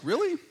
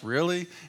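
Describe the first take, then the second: First: It is said as a sincere, genuine question. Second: It is said with a sarcastic, mocking tone. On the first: The claim is genuinely questioned. "It was more like an honest question, like" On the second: The claim is doubted and mocked. "it wasn't the sarcastic, like"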